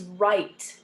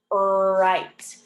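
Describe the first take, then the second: First: Said in the usual way. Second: "right" with a long held R, louder; drawn-out R. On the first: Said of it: "are making just the". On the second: Shown as a demonstration. Teacher showing WR makes just R, stretched "right". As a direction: growl out the first sound of "right" at length. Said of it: "R sound".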